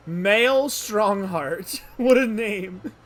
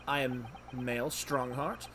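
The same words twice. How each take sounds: First: Very slow, loud, higher relish; amazed repetition. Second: Slow, measured self-introduction; lightly voiced, unhurried dignitary; Chief Justice introducing himself. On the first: Real, not acted. Player marvelling at the judge's name, loudly amazed. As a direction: savour the name loudly, drawn right out. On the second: Judge introducing himself to visitors, slow and measured.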